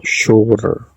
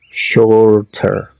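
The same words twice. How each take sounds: First: "shorter" with the T softened into a quick tap. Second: "Shorter" with a crisp, fully sounded T; clear T. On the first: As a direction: let the T in "shorter" almost melt into the R. Second variant introduced by "o. ("shorter" con la T suavizada, casi como una R) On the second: Teacher gives two alternative pronunciations. ("Shorter" pronunciado con la T bien marcada) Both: Shown as a demonstration.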